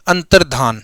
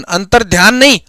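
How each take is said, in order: First: अंतर्धान with a plain ध, no य sound; correct pronunciation. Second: अंतर्ध्यान with a य glide after ध, the mistake; wrong pronunciation. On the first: Teacher giving the correct अंतर्धान after the wrong one. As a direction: say अंतर्धान as antar-dhaan. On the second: Teacher showing the wrong अंतर्ध्यान to avoid. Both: Shown as a demonstration.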